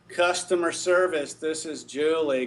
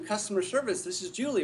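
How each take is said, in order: First: The voice sounds flat and uninterested. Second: The voice sounds warm and friendly. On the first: The agent does not want to help. The speaker calls it wrong. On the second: The agent is glad to help. The speaker calls it right.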